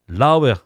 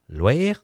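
First: The word is said in full, two clear syllables. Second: The word is contracted into a shorter form. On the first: "Laouer, c'est clair" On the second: "il vous l'arrête loer"

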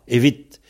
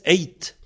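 First: The word is said with its v sound. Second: The word is said without any v sound. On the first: "si le V s'en va, évite" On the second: "Il reste eight"

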